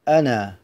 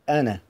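First: The final vowel is long. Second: The final vowel is short. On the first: The reader pauses on the word. "إن وقفنا نقول أنا بالألف" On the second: The reader continues without pausing. "وإن استمررنا بالقراءة وكانت دارجة"

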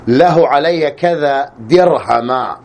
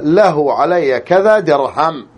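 First: The last word ends in a short a vowel. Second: The last word ends on a bare m sound. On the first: "النصب" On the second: "بسكون الميم"

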